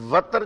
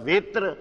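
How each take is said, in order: First: The first vowel is a short 'a'. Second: The first vowel is a short 'i'.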